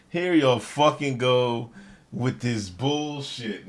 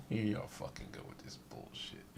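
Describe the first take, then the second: First: Drawn-out, weary repeat; slow, exasperated repeat; slow exasperation. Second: Whispered through a laugh; exasperated giggling aside; laughing, unvoiced disbelief. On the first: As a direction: stretch it out in disbelief. Repeat slowly. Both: Real, not acted.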